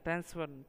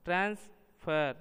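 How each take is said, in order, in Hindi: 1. बलाघात अंतिम अक्षर पर है। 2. बलाघात पहले अक्षर पर है। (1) "क्रिया है" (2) "यानी संज्ञा है"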